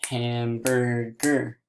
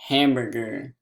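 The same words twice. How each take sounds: First: HAMBURGER slowly in three beats, ham-bur-ger; slow, separated HAMBURGER; split into syllables. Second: HAMBURGER quickly as one word; quick, unbroken HAMBURGER; said fast. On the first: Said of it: "So one last time". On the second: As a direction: say HAMBURGER fast, syllables joined. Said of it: "let's say the word fast". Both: Shown as a demonstration.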